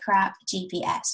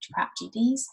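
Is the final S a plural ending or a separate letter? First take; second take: separate letter; plural. First: The S is spelled out as its own letter. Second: The S is a plural ending on the letters. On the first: The speaker calls it right. "remember it by crap G P S" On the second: The speaker calls it wrong. "not crap G Ps"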